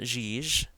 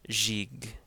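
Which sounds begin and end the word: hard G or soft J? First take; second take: J then J; J then G. First: It starts and ends with a soft J. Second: It starts with a soft J and ends with a hard G. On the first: The speaker calls it wrong. "It's not Jij" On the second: The speaker calls it right. "it's Jig"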